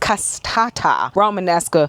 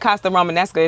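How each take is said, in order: First: The first word has three syllables. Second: The first word has two syllables. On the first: The speaker calls it right. "but it's" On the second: The speaker calls it wrong. "I wasn't saying that right. I still like"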